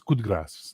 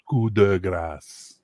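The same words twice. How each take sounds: First: The d in 'de' is pronounced softly. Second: The d in 'de' is pronounced hard. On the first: The speaker calls it right. "You don't pronounce the d so hard" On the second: The speaker calls it wrong. "not coup de grace"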